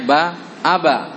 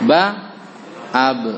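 First: The final bounce sounds like a short a. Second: The final bounce sounds like a short e. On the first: The speaker calls it wrong. "Jangan dibaca ba aba" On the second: The speaker calls it right. "Bunyinya bunyi e"

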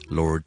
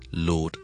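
First: The r sound is pronounced. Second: The r sound is not pronounced. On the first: "如果美式英文就会读埋Lord" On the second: "如果你英式英文咧，中間個R咧通常咧好多時候都係唔需要讀嘅"

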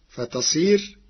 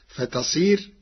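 The two takes are said the same way.

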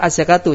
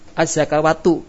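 First: The word is said without a w sound. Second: The word is said with a w sound. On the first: The speaker calls it right. "Baca sama az-zakatu" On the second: The speaker calls it wrong. "Jangan dibaca az-zakawatu. Itu salah nanti"

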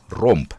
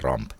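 First: The vowel is an 'o' sound, as in romp. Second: The vowel is an 'a' sound, as in ramp. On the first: The speaker calls it right. "Romp, ei Ramp" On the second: The speaker calls it wrong. "ei Ramp"

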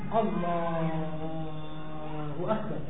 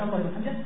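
First: The phrase is stretched out slowly and long. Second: The phrase is said briefly without stretching. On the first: The call is stretched over the whole movement. The speaker calls it wrong. "apalagi dipanjangkan seperti yang terjadi seorang yang bangun dari sujudnya" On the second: The call is finished before the next movement. The speaker calls it right.

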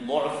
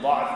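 First: The first vowel is an 'u' sound. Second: The first vowel is an 'a' sound. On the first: The speaker calls it right. "يجوز فيه الضم والفتح" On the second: The speaker calls it wrong. "يجوز فيه الضم والفتح"

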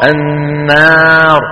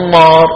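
First: The long a is light and thin. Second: The long a is heavy and emphatic. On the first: The speaker calls it right. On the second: The speaker calls it wrong.

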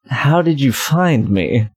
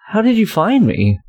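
First: It is said in a lower voice. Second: It is said in a higher voice.

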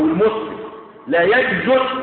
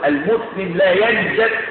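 First: The vowel after the j is 'u'. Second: The vowel after the j is 'a'.

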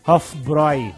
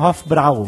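First: The vowel in 'bräu' is an 'oi' sound. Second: The vowel in 'bräu' is not an 'oi' sound. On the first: The speaker calls it right. "Mas se lê Hofbräu. O A, U, com trema no A, é OI" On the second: The speaker calls it wrong. "Normalmente as pessoas falam Hofbräu"

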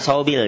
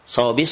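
First: The word ends with an l sound. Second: The word ends with an s sound. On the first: The speaker calls it wrong. "Jangan sawbil ya" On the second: The speaker calls it right. "Alif lamnya enggak dibaca ya"

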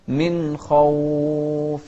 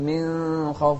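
First: The n sound is pronounced clearly and fully. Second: The n sound is blurred into the next sound. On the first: The speaker calls it right. "نوضح النون والخاء ونفخم الخاء" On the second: The speaker calls it wrong. "ما أقول"

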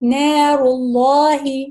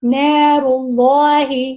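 The two takes are said the same way.

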